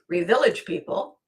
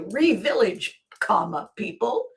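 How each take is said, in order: First: It is said as one name without a pause. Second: There is a pause before "people".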